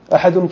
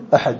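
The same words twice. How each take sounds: First: احد said with an -un ending, "ahadun"; tanween ending. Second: Said in the usual way. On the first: Shown as a demonstration. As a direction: sound the tanween on احد as a final "-un". (احد کے آخر میں تنوین، "احدُن") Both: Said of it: "تنوین ہے آخر".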